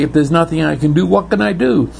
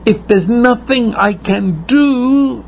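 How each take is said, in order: First: Rushed, flustered question; fast anxious question. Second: High, despairing plea; high pleading cry. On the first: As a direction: blurt it out in a hurry. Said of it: "the funny thing is you might say". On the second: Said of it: "You say". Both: Retold or imitated.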